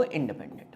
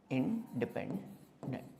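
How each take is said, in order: First: Said in the usual way. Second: "independent" split slowly into in, depend, dent; low, quiet, drawn-out "independent"; slow dictation. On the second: Shown as a demonstration. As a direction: say "independent" softly, piece by piece with pauses. Repeats term slowly while teaching.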